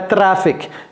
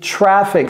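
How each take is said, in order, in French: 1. Il se prononce à la française. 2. Il se prononce à l'anglaise. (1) "c'est pas trafic" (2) "c'est traffic"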